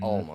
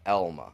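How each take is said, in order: First: The name begins with an 'al' sound. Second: The name begins with an 'el' sound. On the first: This is how outsiders say it. The speaker calls it wrong. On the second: This is how locals in Michigan say it. The speaker calls it right. "here in, in Michigan, you know how we pronounce it. It's Elma"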